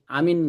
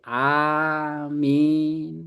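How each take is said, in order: First: The first vowel is said short. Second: The first vowel is said long. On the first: It means trustworthy. The speaker calls it wrong. "pendek-pendek itu terpercaya" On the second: It means so be it. The speaker calls it right. "Harus panjang"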